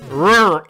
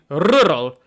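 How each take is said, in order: First: The R is American, further back in the throat. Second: The R is rolled at the front, Dutch-style.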